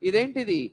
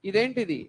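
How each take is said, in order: The two takes are said the same way.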